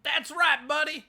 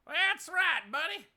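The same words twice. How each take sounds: First: Imitating cheering guy. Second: Mock cheerer. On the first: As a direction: mimic the guy cheering along at the rally. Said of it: "a guy cheering along that just said". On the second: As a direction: echo the rally guy's line.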